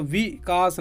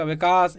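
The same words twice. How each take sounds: First: Vikas broken as वि, then कास; split into syllables. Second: Said in the usual way. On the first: Shown as a demonstration. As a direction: pause after वि in Vikas. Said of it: "नहीं बोलेगा". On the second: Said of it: "एक ही बार में बोलेगा".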